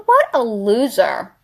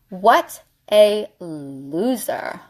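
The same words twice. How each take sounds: First: Said in the usual way. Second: Very slow, word by word; slow emphatic repeat. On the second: Real, not acted. Dismissing the guy who never called, slow deliberate scorn. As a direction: stretch out each word for emphasis.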